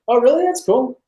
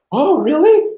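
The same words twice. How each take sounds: First: Short, light, high-pitched acknowledgement; casually unimpressed. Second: Big high-pitched swoop of amazement; mock impressed. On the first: Retold or imitated. Date hearing about his movie, casually interested. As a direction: toss it off with polite mild interest. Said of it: "It's just like". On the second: Date imagined gushing over his movie, exaggeratedly impressed. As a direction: gush it, drawn out and rising. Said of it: "she's not like".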